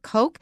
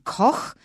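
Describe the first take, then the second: First: It is said with an English pronunciation. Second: It is said with a German pronunciation. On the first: This is how one American family says the name. "They pronounce it Koch" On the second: This is how the word is said in Germany. "the German Koch"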